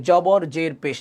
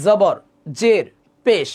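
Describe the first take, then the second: First: "জবর জের পেশ" with everyday Bengali j sounds; Bangla pronunciation. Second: "জবর জের পেশ" with buzzing z, set apart; Arabic pronunciation. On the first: Teacher shows the Bangla way, "জবর জের পেশ" with j. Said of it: "বাংলাতে তো এভাবে বলি". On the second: Teacher shows the Arabic way, "জবর জের পেশ" with z. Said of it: "আরবিতে মূলত বলা হয়". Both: Shown as a demonstration.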